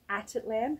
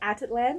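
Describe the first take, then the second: First: Each syllable is said clearly and separately. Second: The syllables run together quickly and loosely. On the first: The speaker calls it right. "I'm going to say it properly" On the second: The speaker calls it wrong. "I just blend it all together"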